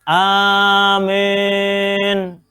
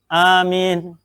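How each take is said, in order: First: The long first vowel leans toward e. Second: The first vowel is said short. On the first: "baca amin tapi dengan imalah" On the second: "bil qasri, pendek"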